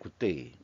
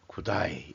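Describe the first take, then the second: First: It sounds like plain 'good day', no Australian accent. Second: It sounds like 'goo-die', with an Australian accent. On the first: "굿데이 아니에요, 굿데이" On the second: "그 호주 발음은 구다이라고 얘기를 하더만요"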